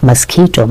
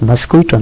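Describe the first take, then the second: First: The middle syllable is said with a plain k sound. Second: The middle syllable is said with a kw sound. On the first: The speaker calls it right. "না মস্কিটো" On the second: The speaker calls it wrong. "মস্কুইটো না"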